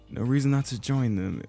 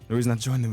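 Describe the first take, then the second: First: It is said in a put-on character voice. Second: It is said in a plain, natural voice. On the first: Another character is speaking. The speaker calls it wrong. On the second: The narrating character is speaking. The speaker calls it right.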